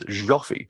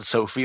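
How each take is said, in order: First: The name begins with a zh sound. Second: The name begins with an s sound. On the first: The speaker calls it right. "it's like the je in bonjour" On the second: The speaker calls it wrong. "not Sophie"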